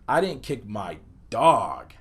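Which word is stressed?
dog. The word dog carries the emphasis. Something other than the dog was kicked. "place the emphasis on the word dog"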